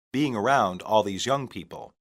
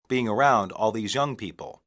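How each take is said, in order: Both takes have the same delivery.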